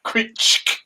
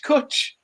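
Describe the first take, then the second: First: "Kuch" breathed out as a throaty rasp, no voice; whispered Welsh rasp. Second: "Kuch" said high as plain English cutch; plain spelling sound. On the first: Host mocking the Welsh word "Kuch" with a rasped whisper. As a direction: hiss "Kuch" as a throat-clearing scrape. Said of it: "Not Kuch". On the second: Host showing the simple version of "Kuch", high and clipped. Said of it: "Just C U H". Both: Shown as a demonstration.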